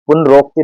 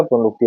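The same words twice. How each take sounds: First: पुनरोक्ति said punarokti with o; wrong form. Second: पुनरुक्ति said punarukti with a short u; short u in पुनरुक्ति, said softly; correct form. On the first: Teacher showing exam students the wrong form, पुनरोक्ति said with o. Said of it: "नहीं होता". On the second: Teacher correcting students, पुनरुक्ति said with a short u. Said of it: "होता है". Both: Shown as a demonstration.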